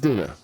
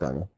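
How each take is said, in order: First: The first vowel sounds like 'ee'. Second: The first vowel sounds like 'eye'. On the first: The speaker calls it right. "It's Dina, not Dinah. Phonetically, Dina" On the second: The speaker calls it wrong. "We've been saying it wrong"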